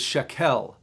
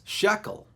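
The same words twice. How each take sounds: First: The word has a Hebrew-style pronunciation. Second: The word has an English-style pronunciation.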